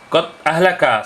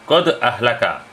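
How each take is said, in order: First: The d in qad is plain, without a bounce. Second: The d in qad has an echoing bounce. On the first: The speaker calls it wrong. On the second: The speaker calls it right. "Yang betul"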